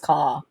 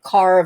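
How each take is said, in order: First: The final R sound is dropped. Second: The final R sound is pronounced. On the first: "between British English" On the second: "the R sound"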